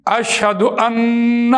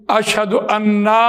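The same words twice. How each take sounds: First: اشہد ان said very slowly and clearly; correct reading. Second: اشہد انا said slowly with the extra long ا; wrong reading. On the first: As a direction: read اشہد ان slowly, as it should be. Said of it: "پڑھنا تو یہ چاہیے". (اشہد ان کا درست تلفظ آہستہ) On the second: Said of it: "یہ پڑھ رہے ہوتے ہیں". (غلط تلفظ اشہد انا آہستہ) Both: Shown as a demonstration.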